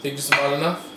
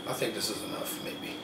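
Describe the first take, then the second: First: Said in the usual way. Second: Much softer, under his breath; muttering to himself. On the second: Real, not acted. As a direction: mumble it to yourself. Quiet answer to himself.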